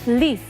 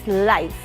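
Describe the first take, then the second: First: The vowel is a long 'ee' sound. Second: The vowel is an 'eye' sound. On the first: The speaker calls it wrong. "we say leaf" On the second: The speaker calls it right. "it's life"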